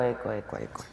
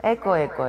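First: Much softer echo, fading away; canyon echo. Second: Playful echo call, fading; canyon echo. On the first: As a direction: let it die off like a canyon echo. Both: Pretend. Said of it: "¿Se oye eco?".

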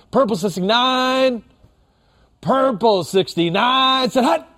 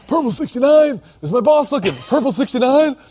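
First: "purple sixty-nine" high and drawn out, then "said hut"; separated snap count. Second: High, squeezed mock-furtive snap count; furtive at work. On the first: Shown as a demonstration. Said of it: "That's how you want that one to sound". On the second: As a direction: imitate a guy sneaking a snap count past his boss. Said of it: "didn't wanna be really loud".

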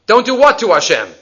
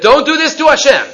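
First: Puzzled echo question leaning on "what", then falling; stress on WHAT. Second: "don't do this to Hashem" pitched high, falling at the end; emphatic command. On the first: Teacher questioning an unclear verse, stress on "what". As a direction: hit "what" in "Don't do what to Hashem". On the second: Teacher translating the verse for students, "don't do this to Hashem" as emphatic command. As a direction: give "don't do this to Hashem" as a raised, firm prohibition. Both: Shown as a demonstration.

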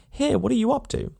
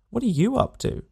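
First: High, rising cry of annoyance with the stress on Here; "Here" shot up high in exasperation; irritated call. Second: High, rising echo with the stress on are; "are" leaned on in a sarcastic echo; mocking retort. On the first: Acted. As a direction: call out at him, fed up. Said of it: "he calls out". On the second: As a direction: throw his words back at him. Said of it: "he retorts".

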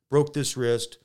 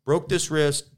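The two takes are said the same way.

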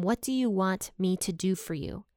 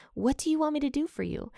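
First: Said in the usual way. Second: Higher, quicker retold call. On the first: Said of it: "but yet he still asks them". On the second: Jesus calling to two blind men, lightly calling out. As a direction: pitch it up as if calling across a gap. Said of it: "and he called to them".

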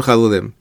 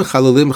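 First: Chalulim dropped a little lower, closing the question; repeated chalulim. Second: Chalulim said level, continuing the list; first chalulim. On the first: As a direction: let chalulim settle down as the repeat. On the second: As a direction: keep chalulim even and open, more to come. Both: Shown as a demonstration. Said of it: "strange repetition of nikavim".

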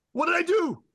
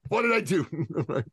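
First: Very high, loud panicked squeal; comic falsetto wail of panic; mock panic. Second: Slow, high drawn-out comic wail; hammed-up slow lament, pitched high; mock panic. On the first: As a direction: act out a man's helpless alarm. Acts out a man's panic. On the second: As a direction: replay the helpless panic for laughs, stretching it out. Repeats the panic line after laughing.

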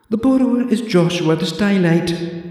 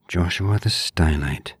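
First: High prim librarian voice for Joshua the Stylite; haughty old librarian announcing the name; librarian Deirdre. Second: Said in the usual way. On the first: Acted. Deirdre tells the visitor the borrower's name in a high prim voice.

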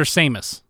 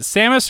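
First: Samus with a long a, SAY-mus; long a pronunciation. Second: Samus with a short a, SAM-us; short a pronunciation. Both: Shown as a demonstration. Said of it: "is it Samus or Samus".

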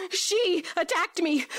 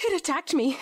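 First: She hit harder as a correction; stress on she. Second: Said in the usual way. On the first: Shown as a demonstration. Mel correcting herself: stress on She.

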